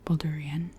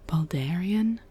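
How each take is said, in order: First: It is pronounced the way a local says it. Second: It is pronounced the way an outsider says it. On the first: The speaker is from the city. "someone from Baldur's Gate would say" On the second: The speaker is not from the city. "someone from outside of Baldur's Gate would say"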